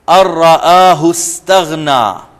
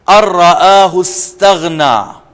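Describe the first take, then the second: The two takes are said the same way.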